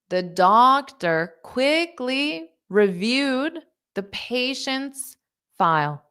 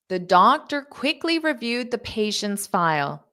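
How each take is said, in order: First: The sentence is spoken at a slow pace. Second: The sentence is spoken at a fast pace. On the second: "I'll say it fast"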